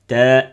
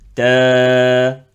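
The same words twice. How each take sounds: First: The vowel ends abruptly with a glottal catch. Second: The vowel is released and fades out freely. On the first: The speaker calls it wrong. "Ça veut dire que tu prononces hamza à la fin. Non" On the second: The speaker calls it right. "laisse le son partir"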